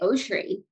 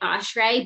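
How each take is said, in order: First: The surname is said in a traditional Jewish way. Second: The surname is said in an everyday, casual way. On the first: This is how the ancestors would say it. "the Chai and the ancestors would say O'Shray" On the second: This is how the family usually says it. "we just happen to say it O'Shray"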